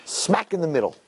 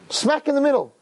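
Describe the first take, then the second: First: Said in the usual way. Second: Smack in the middle said high and stressed; emphatic repeat. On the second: Shown as a demonstration. Preacher stressing where the maror goes, high and strong. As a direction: hit "Smack in the middle" hard, much higher.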